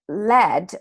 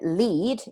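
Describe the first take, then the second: First: The vowel is a short 'e' sound. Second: The vowel is a long 'ee' sound. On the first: It names a type of metal. "when it's pronounced with the short S sound" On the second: It means a cable. "pronounced with that E sound"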